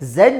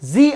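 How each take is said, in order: First: The letter is said as zed, British style. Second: The letter is said as zee, American style. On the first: "ಝಡ್ ಅನ್ನುವಂಥದ್ದು Britain ಇಂಗ್ಲೀಷ್ನ accent" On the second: "ಝಿ ಅನ್ನುವಂಥದ್ದು American English accent"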